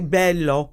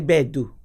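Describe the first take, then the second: First: The middle consonant is a clear L sound. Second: The middle consonant is a rougher D sound. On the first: This is the standard Italian form. The speaker calls it wrong. "You don't say bello" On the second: This is the Sicilian dialect form. The speaker calls it right. "You say bedu. So it's it's like a little rougher"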